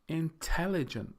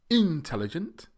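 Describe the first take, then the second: First: The stress is on the second syllable. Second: The stress is not on the second syllable. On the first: The speaker calls it right. "It's the second syllable, the tell, that is pronounced or stressed more strongly. So we say intelligent" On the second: The speaker calls it wrong. "we don't say intelligent"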